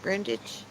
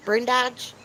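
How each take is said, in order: First: "Brundage" run together as one word, said softly; trying "Brundage" as a single word with a questioning rise; another guess at the name. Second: "Brun Dodge" as two words, "Dodge" rhyming with lodge; sounding out "Brun Dodge" with stress on "Dodge"; guessing the name aloud. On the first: Kim's name tried again as "Brundage", quiet and unsure. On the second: Asking Kim how to say her name, trying "Brun Dodge". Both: Shown as a demonstration. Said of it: "Is that how you say it?".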